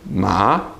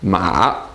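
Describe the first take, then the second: First: The pitch rises from middle to high. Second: The pitch dips down and then rises. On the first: The word means hemp. "Second tone, ... Your voice goes up" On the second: The word means horse. "Third tone, ... goes down and then back up again"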